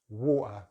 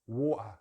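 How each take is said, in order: First: The middle T is a glottal stop. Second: The same.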